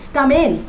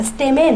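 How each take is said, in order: First: স্টামেন with an open "a" after st, STA-men; "stamen" pronunciation. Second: স্টেমেন with an "e" after st, STE-men; "steman" pronunciation. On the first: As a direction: say স্টামেন as sta-men, first vowel like "father". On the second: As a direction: say স্টেমেন as ste-men, first vowel like "bed". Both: Shown as a demonstration. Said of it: "যেভাবে উচ্চারণ করো".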